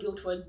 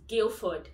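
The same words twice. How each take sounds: First: A D sound is heard in the middle. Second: No D sound is heard in the middle. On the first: The speaker calls it wrong. "It's not Guildford" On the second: The speaker calls it right. "The D is silent"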